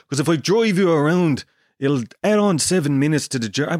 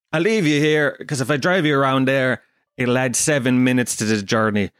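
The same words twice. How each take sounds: First: Badly faked Dublin, veering toward South African; hammed-up Dublin cabbie accent; worst Dublin accent. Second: Said in the usual way. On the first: Taxi driver explaining the longer journey, in a terrible Dublin accent. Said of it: "that's the worst Dublin accent ever". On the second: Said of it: "I'll just do my own accent".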